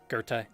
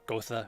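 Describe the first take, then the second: First: The name is said in its German form. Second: The name is said as two syllables, Go-tha. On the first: The speaker calls it right. "Goethe is pronounced like Goethe" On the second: The speaker calls it wrong. "not Gotha"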